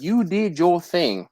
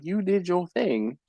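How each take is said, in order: First: Quoted praise. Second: Reading the message aloud. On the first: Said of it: "She was like". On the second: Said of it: "she was like". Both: Retold or imitated.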